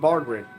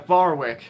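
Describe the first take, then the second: First: The name is said with a D sound. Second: The name is said without a D sound. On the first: The speaker calls it wrong. "there's no D in Bardwick" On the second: The speaker calls it right. "Yeah, Barwick"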